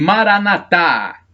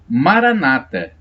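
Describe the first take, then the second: First: The stress falls on the final syllable. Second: The stress falls before the final syllable. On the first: This is how Catholics say it. "acentuação no último A, pronúncia dos católicos" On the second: This is how Protestants say it. "pronúncia dos protestantes"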